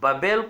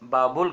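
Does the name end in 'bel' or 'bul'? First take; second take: bel; bul. First: The name is said as 'Babel', ending in 'bel'. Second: The name is said as 'Baabul', ending in 'bul'. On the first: The speaker calls it right. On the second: The speaker calls it wrong.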